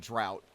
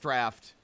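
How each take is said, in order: First: The vowel rhymes with 'out'. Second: The vowel rhymes with 'laughed'. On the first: The speaker calls it wrong. "I say drought, and that's wrong" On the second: The speaker calls it right. "It's draft"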